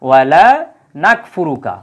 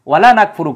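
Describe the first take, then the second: First: The vowel in 'la' is drawn out long. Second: The vowel in 'la' is kept short. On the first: We do not disbelieve in you. The speaker calls it right. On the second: We certainly do disbelieve in you. The speaker calls it wrong.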